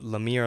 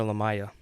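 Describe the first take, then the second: First: "Lamia" with an ee in the middle, la-MEE-a; name pronunciation option. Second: "Lamaya" with an eye sound in the middle, la-MY-a; alternative name pronunciation. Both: Shown as a demonstration. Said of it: "is it Lamia or Lamaya".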